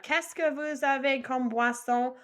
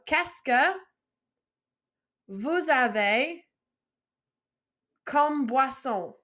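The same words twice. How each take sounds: First: Said in the usual way. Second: Qu'est-ce que, vous avez, comme boisson with long pauses between; slow chunked drill, pausing after each part; phrase split into parts. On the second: Shown as a demonstration. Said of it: "first line by itself".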